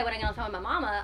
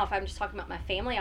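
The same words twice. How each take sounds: First: Carolina accent thickening on "mama"; heavier Carolina accent. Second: Said in the usual way. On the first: Shown as a demonstration. Guest showing how she talks about mama, heavier Carolina accent. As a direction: let the home Carolina accent get heavier. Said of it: "my accent will start getting heavier". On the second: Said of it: "I'll talk one way".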